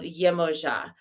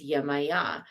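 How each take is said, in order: First: The consonant before the last vowel is a J sound. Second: The consonant before the last vowel is a Y sound. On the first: This is the original form of the name. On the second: This is how Spanish speakers say the name.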